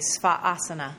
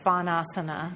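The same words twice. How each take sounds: First: A brief catch separates the two a vowels. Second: An n sound joins the two a vowels. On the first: "There's that little stutter of the A" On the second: "But a lot of people say svanasana"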